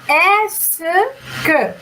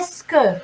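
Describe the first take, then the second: First: It is said slowly, syllable by syllable. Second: It is said quickly, run together.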